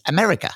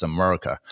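First: "America" said higher, at the front of the mouth; British pronunciation. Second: "America" said low at the back of the throat; American pronunciation. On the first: Contrasting the British accent, "America" high and forward in the mouth. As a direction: place "America" forward, with a lifted pitch. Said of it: "all at the front of the mouth". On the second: Explaining the American accent, "America" low with a back-of-throat schwa. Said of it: "at the back of the throat". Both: Shown as a demonstration.

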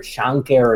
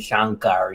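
First: "Shankar" with a weak -ker ending; first name variant. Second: "Shankar" with an open -kar ending; second name variant. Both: Shown as a demonstration. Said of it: "it's similar to the difference between".

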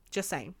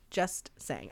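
First: Much softer, lower throwaway; quiet aside. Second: Even lower, much softer repeat; quieter echo. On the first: Host signing off the rant, quiet aside. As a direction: murmur it like a shrug. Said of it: "trailing mock-innocent sign-off". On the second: Host repeating her sign-off, fading quiet. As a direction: let it fade out. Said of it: "repeated softer". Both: Real, not acted.

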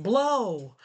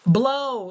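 First: Said in the usual way. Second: Louder coaxing blow; firm louder urging. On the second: Retold or imitated. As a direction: urge the child firmly. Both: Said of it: "I was like".

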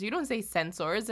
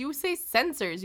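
First: "censors" said as sen-sors, full OR vowel; mocked pronunciation. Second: "censors" said as SEN-sers, reduced ending; usual pronunciation. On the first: Mariner correcting the captain, "censors" mocked as sen-SORS. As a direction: reject "censors" pronounced to rhyme with "doors". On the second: Retold or imitated. Mariner correcting the captain, "censors" said as SEN-sers. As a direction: insist on "censors" with a weak "ers" ending. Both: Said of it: "what do you mean you say censors".

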